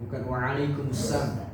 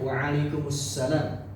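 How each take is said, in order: First: The syllable la is dropped, ending in sam. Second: The final word salam is said in full. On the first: And harm be upon you too. The speaker calls it wrong. "Dan celaka juga atasnya" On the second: And peace be upon you. The speaker calls it right. "jawabannya waalaikumsalam"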